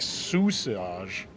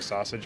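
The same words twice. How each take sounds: First: The name is said with Spanish sounds. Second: The name is said with English sounds. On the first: "technically you're supposed to say like sausage" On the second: "I just say sausage"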